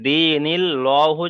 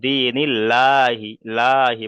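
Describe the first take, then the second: First: Slow দিনিল্লাহু with a heavy "lo"; higher, drawn-out দিনিল্লাহু with a thick "lo"; wrongly rounded pronunciation. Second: Slow দিনিল্লাহি with a light, open "laa"; thin "barik" pronunciation. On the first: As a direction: round the mouth, "dee-nil-LO-hu" for দিনিল্লাহু. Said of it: "তাহলে এখানে পড়াটা ভুল হবে". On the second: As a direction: keep lips unrounded in দিনিল্লাহি, লাহি. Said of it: "এখানে পড়তে হবে বারিক করে". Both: Shown as a demonstration.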